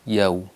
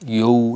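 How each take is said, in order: First: The y sound is single and short. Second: The y sound is doubled and held. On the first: The speaker calls it right. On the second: The speaker calls it wrong.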